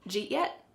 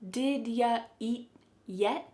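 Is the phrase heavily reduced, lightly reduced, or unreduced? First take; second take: heavily reduced; lightly reduced. First: Did is dropped; you and eat merge. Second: You is reduced to ya; did stays. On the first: "it's reduced so much it doesn't sound like any English word" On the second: "Here the word you is being reduced to ya"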